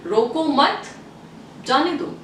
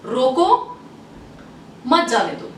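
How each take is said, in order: First: "रोको मत" together, pause, then "जाने दो"; pause after मत. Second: "रोको" left hanging, long pause, then "मत जाने दो"; pause after रोको. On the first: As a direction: put the comma after मत. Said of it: "और second statement". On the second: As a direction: put the comma straight after रोको. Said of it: "What I said". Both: Shown as a demonstration.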